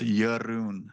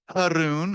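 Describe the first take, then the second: First: The name begins with a Y sound. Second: The name begins with an H sound. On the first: The speaker calls it right. "The J is pronounced as a Y, and the R rolls" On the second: The speaker calls it wrong. "the J is pronounced as an H, but no"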